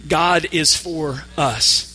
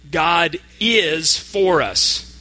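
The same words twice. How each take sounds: First: The stress is on the word us. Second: The stress is on the word is. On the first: God is on the side of us in particular. "And now the word us" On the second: It really is true that God is on our side. "This time, we're going to emphasize the word is"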